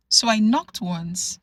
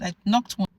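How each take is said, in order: First: "knocked once" slow, each word weighted; stress on knocked. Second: Said in the usual way. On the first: Shown as a demonstration. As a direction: lean on knocked, slowly.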